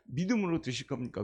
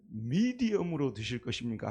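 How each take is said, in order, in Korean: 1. 'medium'을 줄여서 'mideum'처럼 들리게 발음합니다. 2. 'medium'을 또렷하게 끝까지 발음합니다. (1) "발음이 그렇게 썩 좋은 건 아니잖아요"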